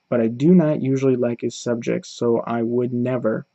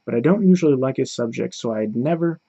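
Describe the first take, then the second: First: Each word is said separately, without contractions. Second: The words are joined together into contractions. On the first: The speaker calls it wrong. "They'll say all the separate words instead of saying them together" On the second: The speaker calls it right. "It just it flows better"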